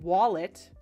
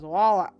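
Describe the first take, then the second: First: The word ends with a clear t sound. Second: The l and final t are slurred away.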